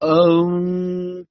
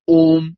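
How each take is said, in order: First: It is drawn out through separate vowel sounds. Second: It is said as one short, clipped syllable. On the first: The speaker calls it right. "हम अगर उसके तीन अक्षरों को अलग करते हैं, आकार उकार मकार" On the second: The speaker calls it wrong. "ये उच्चारण गलत है।"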